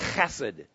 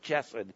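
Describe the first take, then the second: First: The word begins with a rough throaty h. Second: The word begins with an English ch sound. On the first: The speaker calls it right. "It's a rough H" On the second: The speaker calls it wrong. "people pronounce it chesed, and that's not right"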